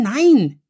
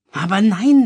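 First: Loud, high, falling wail, almost crying; wailing near tears. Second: Loud, high wail, close to tears; wailing near tears. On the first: Louis wails a final no, near tears. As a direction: let the last no sink into a whimpering wail. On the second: Louis wails to his mother, near tears. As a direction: whine it out, on the verge of crying. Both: A narrator's reading. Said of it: "jammerte Louis, den Tränen nah".

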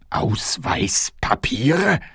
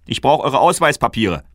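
First: Very slow, whispered "Ausweispapiere?" with a rise; puzzled whisper. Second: High, loud brusque "Ausweispapiere"; guard demanding the kings' papers, loud and brusque; gruff guard demand. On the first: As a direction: whisper "Ausweispapiere?" slowly, not understanding. King baffled by the word. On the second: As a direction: demand "Ausweispapiere" loudly, like an official. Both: Acted.

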